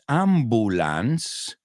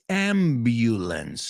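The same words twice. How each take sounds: First: The u is a plain vowel without a y sound. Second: The u sounds like the word you. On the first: The speaker calls it wrong. "No es ambulance" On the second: The speaker calls it right. "La U suena como you"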